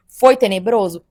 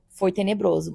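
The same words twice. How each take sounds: First: "Foi tenebroso?" slow and louder, asked as a question; drawn out "Foi tenebroso?" posing it to the audience; asking "Foi tenebroso?" before answering it; rhetorical question. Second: "Foi tenebroso." softer, falling, stated; confirming "Foi tenebroso." quietly with a falling close; flat answer. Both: Shown as a demonstration.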